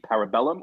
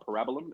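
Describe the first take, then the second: First: The stress falls on the usual syllable. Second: The stress falls on an unusual syllable. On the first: The speaker calls it right. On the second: The speaker calls it wrong.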